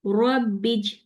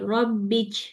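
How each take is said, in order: First: रब्बिज with a clean, stuck j sound; correct jeem. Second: रब्बिज released into a ch sound; wrong jeem. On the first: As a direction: press the tongue for रब्बिज, no ch. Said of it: "अगली देखिए". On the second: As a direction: let रब्बिज slip into ch. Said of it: "छोड़ूंगी तो क्या आवाज आ रही है?". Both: Shown as a demonstration.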